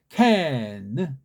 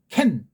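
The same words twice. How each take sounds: First: A Western sound, with a light, gliding final n. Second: A Korean sound, opened wide and clipped. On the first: "근데 걔는 캔. 느가 슬쩍 그렇게 해야지만" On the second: "우린 캔. 딱 벌어지는데"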